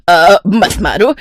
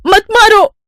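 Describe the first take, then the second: First: Slow, drawn-out plea at normal pitch; pained pleading. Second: High-pitched yelp of a plea; panicked begging. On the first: Stepmother begging the girl to stop, slow pained plea. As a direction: plead wearily through the pain. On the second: Stepmother under the stick, panicked high plea. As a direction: beg sharply, very high. Stepmother begs while being beaten. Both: Acted.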